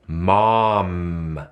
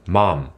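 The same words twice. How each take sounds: First: The final nasal sound is fully held and resonant. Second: The final nasal sound is weak and quickly dropped. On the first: The speaker calls it right. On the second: The speaker calls it wrong.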